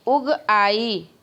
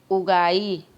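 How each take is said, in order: First: Very slow "उग", a break, then long "आई"; split into two words. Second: "उगाई" run together, lower and falling; joined as one word. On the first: Teacher demonstrating juncture, slowly separating "उग आई". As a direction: hold "उग" and "आई" clearly apart. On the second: Teacher showing the joined form, "उगाई" without a break. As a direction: merge it into a single word "उगाई". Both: Shown as a demonstration. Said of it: "अलग-अलग शब्दों को हमने जोड़ दिया".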